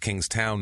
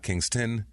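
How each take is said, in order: First: The name ends with a full 'town' sound. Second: The name ends with a short 'ston' sound. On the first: The speaker calls it right. "it's Kingstown" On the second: The speaker calls it wrong. "not Kingston"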